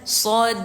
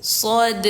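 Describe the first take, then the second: The two takes are said the same way.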